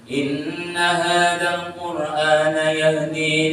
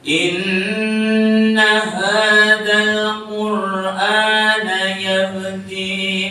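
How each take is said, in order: First: It is recited at a moderate, medium pace. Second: It is recited slowly with long drawn-out vowels. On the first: "Tadwir itu sedeng" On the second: "Niku nek tartil semonten niku tempo"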